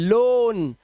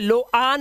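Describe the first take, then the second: First: The vowel is a single o sound. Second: The vowel is split into o then a. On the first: The speaker calls it right. "ओ ए का उच्चारण ओ ही करना है" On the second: The speaker calls it wrong. "इसे लो आन नहीं पढ़ते"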